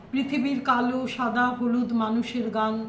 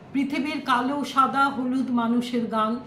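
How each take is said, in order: Both takes have the same delivery.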